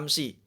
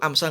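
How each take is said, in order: First: The word ends with an i vowel. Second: The word ends with an a vowel. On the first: The speaker calls it right. "dibaca kasroh" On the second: The speaker calls it wrong. "nggak boleh"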